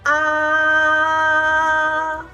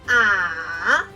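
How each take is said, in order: First: The pitch stays high, flat and long. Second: The pitch is low, nearly flat and short. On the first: "go up high. Keep flat and long" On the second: "Say it low, almost flat and short"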